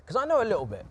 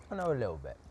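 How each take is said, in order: First: High, loud proud boast; proud exclamation. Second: Said in the usual way. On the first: Real, not acted. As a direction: shout it out with pride. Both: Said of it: "We can tell".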